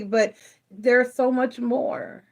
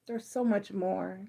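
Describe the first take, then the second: First: Said in the usual way. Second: "There's so much more." repeated much softer; near-whispered echo of the urging. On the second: Real, not acted. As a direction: let it sink in quietly. Soft repeat of previous line.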